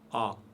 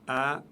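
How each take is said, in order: First: The vowel is said heavy and full. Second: The vowel is said light and thin. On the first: The speaker calls it wrong. "on ne dit pas A" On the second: The speaker calls it right. "Alif est toujours léger. On dit A"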